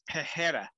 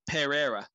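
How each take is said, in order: First: The middle consonant sounds like an H. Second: The middle consonant sounds like an R. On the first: The speaker calls it wrong. "I was always taught it was" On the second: The speaker calls it right. "Apparently, it's with an R, not a H"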